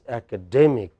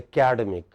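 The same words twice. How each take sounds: First: The stress is not on the second syllable. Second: The stress is on the second syllable. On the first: The speaker calls it right. "The way standard English does is" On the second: The speaker calls it wrong. "the way we pronounce this word in India, we emphasize the second vowel from the left"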